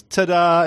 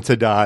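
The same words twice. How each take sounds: First: High, proud little "Ta-da" fanfare; triumphant ta-da. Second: Said in the usual way. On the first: Retold or imitated. Husband announcing his trick in bed, proud high ta-da. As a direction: present it like a magic trick. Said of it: "and he goes". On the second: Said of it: "he keeps going".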